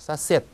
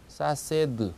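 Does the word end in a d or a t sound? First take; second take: t; d. First: The word ends in a voiceless t sound. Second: The word ends in a voiced d sound. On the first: The speaker calls it right. "D가 때처럼 발음이 나서" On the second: The speaker calls it wrong. "그대로 읽으면 사세드 이렇게 되죠"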